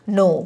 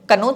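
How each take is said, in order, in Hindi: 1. शब्द N की आवाज़ से शुरू होता है, K नहीं। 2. शब्द की शुरुआत में K की आवाज़ साफ़ सुनाई देती है।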